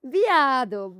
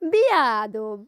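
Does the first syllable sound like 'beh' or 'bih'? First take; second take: bih; bih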